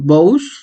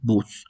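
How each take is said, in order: First: The vowel is read as two separate sounds. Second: The vowel is a single plain u sound. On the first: The speaker calls it wrong. "lo podríamos leer así" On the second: The speaker calls it right. "realmente su pronunciación es bus"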